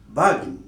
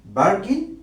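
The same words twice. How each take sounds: First: বার্গেন as "BAH-gin", silent r, falling; British pronunciation. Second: বার্গেন as "BAR-gin" with sounded r, rising; American pronunciation. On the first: Teacher offering the second version, British pronunciation. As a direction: drop the r in বার্গেন and let it fall. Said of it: "বার্গেন কিংবা". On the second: Teacher offering the first of two versions, American pronunciation. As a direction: sound the r in বার্গেন and lift the end. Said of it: "So শব্দটি হলো". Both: Shown as a demonstration.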